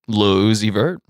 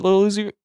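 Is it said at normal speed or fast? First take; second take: normal speed; fast. First: It is said at a normal pace. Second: It is said very fast.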